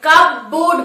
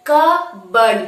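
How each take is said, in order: First: কাপবোর্ড with p sounded and full "board"; wrong pronunciation. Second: কাপবোর্ড as kuh-burd, p silent; correct pronunciation. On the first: Teacher saying what we will not say, wrong pronunciation. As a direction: read কাপবোর্ড as spelt, cup-board. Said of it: "আমরা কাপবোর্ড বলবো না". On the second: Teacher modelling the word for students, correct pronunciation. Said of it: "কাপবোর্ড বলবো". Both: Shown as a demonstration.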